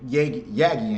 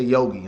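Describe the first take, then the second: First: The first vowel sounds like 'ah'. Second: The first vowel sounds like 'oh'. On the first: The speaker calls it right. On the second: The speaker calls it wrong.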